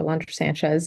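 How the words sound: The name is said with English sounds. "I always introduce myself like that in, in English"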